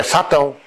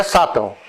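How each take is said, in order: First: SATÃO with the weight on the final ÃO; corrected pronunciation. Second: SÁTÃO as the rejected form, its first A contrasted with SATÃO; wrong pronunciation. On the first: Teacher giving the correction, stress on the end of SATÃO. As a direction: say SATÃO with a light first syllable, stressed TÃO. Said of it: "é Satão". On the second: Teacher rejecting a reading, stressed open first A in SÁTÃO. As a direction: say SÁTÃO as the mistaken version. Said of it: "Não é Sátão". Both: Shown as a demonstration.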